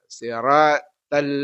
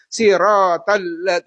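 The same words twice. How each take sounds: First: "Siratal" slow, with an open long A; correct SIRATAL. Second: "sirotal" loud and drawn out, rounded O; children's misreading. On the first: Shown as a demonstration. Teacher correcting the children's reading, slow open "Siratal". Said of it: "ya, bukan". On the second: Retold or imitated. Teacher imitating kindergarten children reading, loud slow "sirotal". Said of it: "anak-anak kita ya yang masih T K".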